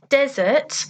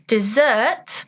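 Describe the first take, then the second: First: The stress is on the first syllable. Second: The stress is on the second syllable. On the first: A hot, dry place full of sand. "with the stress on the first word" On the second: Sweet food eaten after the main course. "If you put the stress on the second part of the word"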